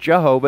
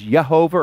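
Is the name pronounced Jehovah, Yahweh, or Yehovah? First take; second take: Jehovah; Yehovah. First: The name is pronounced jeh-HO-vah. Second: The name is pronounced yeh-HO-vah. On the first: "or Jehovah" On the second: "Some people mispronounce it as Yehovah"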